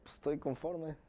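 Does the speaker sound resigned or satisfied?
resigned. The phrase sounds resigned and accepting. The speaker accepts it because there is no choice. "O dos, de que estoy pues resignado, ya ni modo, ya me tocó"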